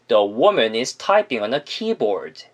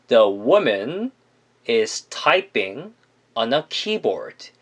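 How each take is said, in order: First: The sentence is said quickly and smoothly. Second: The sentence is said at a moderate, slower pace. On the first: "빠르고 자연스럽게 발음하시면" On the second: "조금 더 붙여서 발음을 하신다면"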